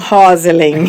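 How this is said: The name is said half in Portuguese style. People who heard the original form adapt it. "eles fazem meio português, falam Rosalind"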